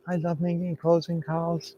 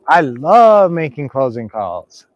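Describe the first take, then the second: First: It is said meekly and quietly. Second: It is said boldly and loudly.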